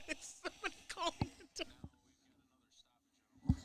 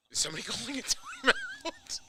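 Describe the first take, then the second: First: Amused, breathy whisper. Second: Asking through a laugh. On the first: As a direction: whisper it with a laugh. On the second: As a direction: laugh while you ask. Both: Real, not acted. Asked again, whispered the second time.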